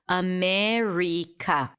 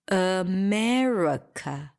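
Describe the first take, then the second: First: Every vowel is pronounced as a full vowel. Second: The unstressed vowels are reduced to schwa. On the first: The speaker calls it wrong. "If I pronounce it according to the vowels" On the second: The speaker calls it right. "all of them are reduced to a schwa"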